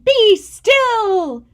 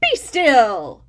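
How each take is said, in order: First: Higher, louder order; commanding shout. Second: Firm command; commanding Max. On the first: Max pointing at the monsters, a loud command. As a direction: command them to freeze. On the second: Max taming the monsters, a firm command. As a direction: order them still. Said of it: "But Max said". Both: Acted.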